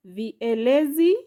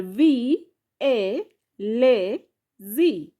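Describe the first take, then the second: First: Said in the usual way. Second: "V, A, le, Z" said as vi, e, le, zi with pauses; syllable by syllable. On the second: Shown as a demonstration. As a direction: separate and stretch "V", "A", "le", "Z". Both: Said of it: "has syllable".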